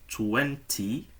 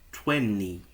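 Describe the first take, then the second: First: The middle T sound is clearly pronounced. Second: The middle T is dropped, leaving an N sound. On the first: "ao invés de" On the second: "com som de N"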